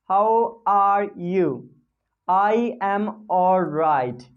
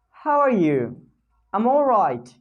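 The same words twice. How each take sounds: First: Said in the usual way. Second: "I'm all right." said quick and joined; "I'm all right." run together; contracted reply. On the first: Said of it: "instead of speaking I". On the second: Shown as a demonstration. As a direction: answer fast, using "I'm".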